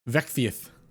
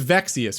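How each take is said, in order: First: The s sound is said with a lisp. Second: The s sound is said clearly, without a lisp.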